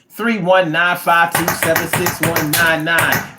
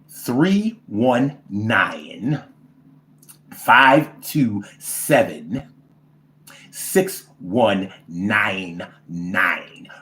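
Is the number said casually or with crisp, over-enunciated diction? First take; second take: casual; over-enunciated. First: The digits are said in a casual, everyday way. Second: The digits are crisply enunciated in a European accent.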